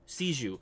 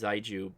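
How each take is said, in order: First: The word begins with an s sound. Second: The word begins with a z sound. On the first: The speaker calls it right. "Siju is how you pronounce that" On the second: The speaker calls it wrong. "It's not pronounced Zaiju"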